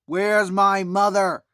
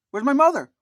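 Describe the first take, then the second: First: Loud, slow, drawn-out demand; upset cry. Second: High, loud panicked question; alarmed shout. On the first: Michael upset about his missing mother, loud slow demand. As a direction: plead it loudly and slowly. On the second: Michael realizing his mother is missing, loud alarmed cry. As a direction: call out for her in sudden fear. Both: Retold or imitated. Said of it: "he got very upset".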